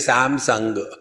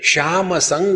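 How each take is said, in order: First: The first word begins with an 's' sound. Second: The first word begins with a 'sh' sound. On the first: Gujarati speakers say it this way, making it Samsung. "वो कहते श्याम संग" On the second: This is the real name. "असल में श्याम संग है"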